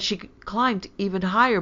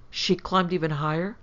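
First: Higher, louder excited boast; triumphant. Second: Mildly puzzled question to oneself; puzzled recollection. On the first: Daughter bragging to mother, triumphant. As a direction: blurt it out proudly. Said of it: "cried Hyacinth triumphantly". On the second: Mother pondering daughter's slip, puzzled. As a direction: echo it wonderingly, rising at the end. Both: A narrator's reading.

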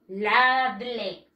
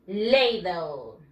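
First: "Ladle" said "LAH-dleh", as it is written; Spanish spelling pronunciation. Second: "Ladle" said "LAY-dl", falling low at the end; English pronunciation. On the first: Teacher sums up the spelling for pupils, Spanish spelling pronunciation. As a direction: read "Ladle" with a Spanish a and final e. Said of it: "Así se escribe". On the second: Teacher answers how to pronounce this, English pronunciation. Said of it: "How do you pronounce this?". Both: Shown as a demonstration.

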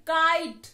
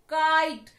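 First: "kite" repeated loud, "क" stressed again; loud sounded-out word. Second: "kite" said loud with the "क" sound stressed; loud sounded-out word. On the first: Teacher repeating "kite" so pupils catch the "क". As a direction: punch the "क" in "kite" once more. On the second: Teacher stressing "kite" so the children hear the "क". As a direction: hit the first "क" in "kite". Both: Shown as a demonstration. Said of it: "हमने पहले क की आवाज निकाली".

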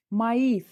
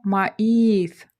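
First: Said in the usual way. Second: Маїс loud and slow, Ї stretched out; teacher's drawn-out маїс, the stressed Ї standing as its own syllable. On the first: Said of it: "але ми чуємо маїс". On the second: Shown as a demonstration. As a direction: split "маїс" in two and hit a long Ї. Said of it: "Наголос у нас на слабку голосну".

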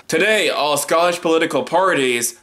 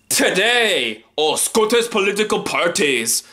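First: Said in the usual way. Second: Hammed-up Scottish accent, pitched up at the start. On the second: Shown as a demonstration. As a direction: put on a mock Scottish accent. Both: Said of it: "do that for my Scottish accent".

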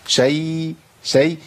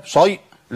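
First: شيء with a thin light ya. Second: شيء with a thick heavy ya; heavy ya mistake. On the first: Teacher giving the correct light form. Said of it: "مرققة على طول". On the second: Teacher demonstrating the forbidden heavy form. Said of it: "ما ينفعش". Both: Shown as a demonstration.

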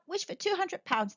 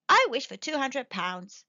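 First: High, lively suggestion; breezy urging. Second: Clear, deliberate wish; distinctly. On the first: Son urging his father to wish, breezily. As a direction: toss it out lightly. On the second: Old man making his wish aloud, distinctly. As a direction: pronounce each word carefully and firmly. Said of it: "said the old man distinctly". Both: A narrator's reading.

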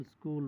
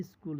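First: Said in the usual way. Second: "স্কুল" with an i-sound before it, "iskul"; altered Bengali pronunciation. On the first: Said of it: "ইংরেজি উচ্চারণে". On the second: Shown as a demonstration. Teacher showing a borrowed word's altered form, altered pronunciation "iskul". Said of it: "পরিবর্তিত উচ্চারণে".

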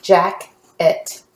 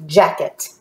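First: "jacket" slowly in two parts, jack, et; split into syllables. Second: Said in the usual way. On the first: Shown as a demonstration. Teacher helping the class read, "jacket" syllable by syllable. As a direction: say "jacket" with a clear gap between syllables. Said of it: "we're not gonna break this up". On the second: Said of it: "I'm gonna go ahead and help you out".

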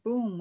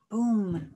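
First: A second booming thud. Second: Booming thud; loud boom. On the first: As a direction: thump it down hard. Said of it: "With a thud". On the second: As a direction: drop it like a heavy thud. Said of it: "plopped down hard". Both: A narrator's reading.

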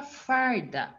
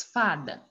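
First: "farda" said slowly with the R sounded; added R. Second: Said in the usual way. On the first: Shown as a demonstration. Teacher turns the example into a new word, "farda" slow with R. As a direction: stretch "farda" to show the R before the d. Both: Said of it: "Se eu colocar um R".

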